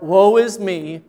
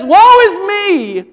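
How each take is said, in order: First: It is said in a gloomy Eeyore voice. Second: It is cried out with strong exclamation.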